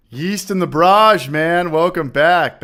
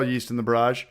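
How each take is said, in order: First: Drawn-out, louder, higher shout-out; big slow hype greeting; excited greeting. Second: Said in the usual way. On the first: Real, not acted. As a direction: call his name out like a host welcoming a regular. Greeting chat viewer by name.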